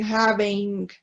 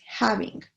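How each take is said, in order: First: "having" said as "have-ing", the silent E sounded; wrong pronunciation. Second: Said in the usual way. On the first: Shown as a demonstration. Teacher showing students what we can't say, "having" mispronounced with the E sounded. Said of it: "porque no podemos decir". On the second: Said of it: "Es having".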